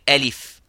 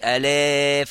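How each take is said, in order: First: The vowel is kept short. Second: The vowel is stretched out long. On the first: The speaker calls it right. "you just say alif" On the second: The speaker calls it wrong. "you don't say alif and you make it longer"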